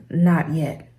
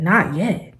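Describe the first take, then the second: First: Said in the usual way. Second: Disbelieving question, rising; incredulous echo. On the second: Retold or imitated. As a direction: repeat it in disbelief. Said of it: "And I said".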